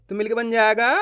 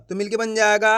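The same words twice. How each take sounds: The two takes are said the same way.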